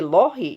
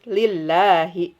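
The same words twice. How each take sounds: First: The L is heavy and thick. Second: The L is light and thin. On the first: The speaker calls it wrong. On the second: The speaker calls it right. "Kalau kasroh tetap aja tipis"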